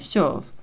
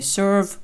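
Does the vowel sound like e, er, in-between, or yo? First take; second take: yo; er. First: The vowel is a soft yo-like sound. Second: The vowel is e followed by a clear r. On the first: "І не м'який знак О, не serve" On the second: "не Ер, не Serve"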